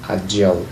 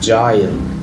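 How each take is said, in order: First: The last syllable sounds like a plain 'l'. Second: The last syllable sounds like 'aisle'. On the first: "الامريكان بينطقوها agile" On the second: "ده طبعا بريطاني"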